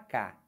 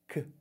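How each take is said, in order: First: A k sound followed by an a vowel. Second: A bare k sound with no vowel after it. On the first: The speaker calls it wrong. "K já é o K mais o A" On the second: The speaker calls it right. "A gente fala K"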